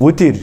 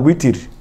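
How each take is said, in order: First: The word begins with a W sound. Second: The word begins with a W sound.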